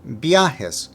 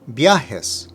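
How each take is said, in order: No difference in how they are said.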